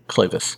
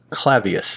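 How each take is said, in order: First: The name has no 'ee' sound before 'us'. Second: The name has an 'ee' sound before 'us'. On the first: The speaker calls it right. "It's just K-L-A-V-U-S" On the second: The speaker calls it wrong. "I believe I pronounced it Clavius. It doesn't have an I"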